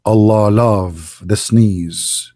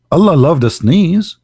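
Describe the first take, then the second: First: Very slow, low and drawn out; mock solemn pronouncement. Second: Questioning repeat, higher and quicker; incredulous echo. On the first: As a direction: intone it gravely, stretching every word. Solemn mock quote, then incredulous repeat. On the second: Acted. Repeats it in disbelief.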